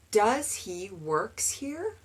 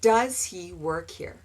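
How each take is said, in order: First: Slow, careful mock error; learner's mistake. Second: Said in the usual way. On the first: Shown as a demonstration. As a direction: drag it out like a confused student. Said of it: "They want to conjugate both verbs". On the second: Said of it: "but you don't".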